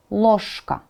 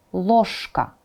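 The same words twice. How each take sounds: The two takes are said the same way.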